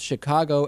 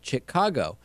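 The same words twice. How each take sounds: First: It begins with an sh sound. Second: It begins with a ch sound.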